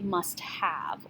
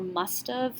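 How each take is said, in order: First: Both words are said in full. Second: The two words are contracted into one. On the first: "It's actually must have" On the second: "like as far as M U S T apostrophe V E"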